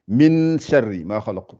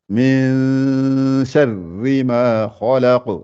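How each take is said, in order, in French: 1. Le n se prononce pleinement avec la langue. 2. Le n est caché dans un son nasal tenu. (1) "Si je lisais qu'en arabe, j'aurais dit" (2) "je n'appuie pas sur le N"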